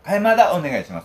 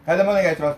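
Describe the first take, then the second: First: 替えまだ said with a clear "mada" instead of "dama", loud and high; nervous mispronunciation. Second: Loud, high call for a refill; loud order. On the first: Nervous Ehime researcher ordering 替えまだ, swapped syllables. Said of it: "緊張して言いました". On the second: Fukuoka local loudly ordering a refill, loud. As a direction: belt out the noodle refill order proudly. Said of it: "大きな声で言うんですよ". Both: Retold or imitated.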